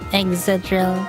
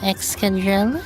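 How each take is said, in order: First: The name has no k sound after 'ex'. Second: The name has a k sound after 'ex'. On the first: The speaker calls it wrong. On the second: The speaker calls it right.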